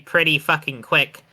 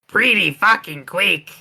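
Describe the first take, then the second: First: It is said in the speaker's ordinary accent. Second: It is said in an exaggerated Mexican accent.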